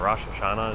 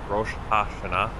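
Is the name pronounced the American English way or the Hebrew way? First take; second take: American English; Hebrew. First: It is pronounced the usual American English way. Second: It is pronounced the way it sounds in Hebrew. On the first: "Rosh Hashanah is how people say it" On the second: "shouldn't it be more like Rosh HaShanah?"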